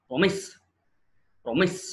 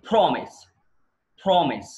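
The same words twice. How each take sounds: First: promise with a light first syllable, rising onto MIS; verb stress. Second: promise with PRO punched, falling away; noun stress. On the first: Teacher shows the class promise as a verb, second-syllable stress. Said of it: "verb అయితే". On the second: Teacher shows the class promise as a noun, first-syllable stress. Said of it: "noun అనుకోండి". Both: Shown as a demonstration.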